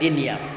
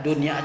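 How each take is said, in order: First: The first vowel is an i sound. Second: The first vowel is an u sound. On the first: "dan juga mengkasrahkannya" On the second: "dengan mendhammahkan huruf dal"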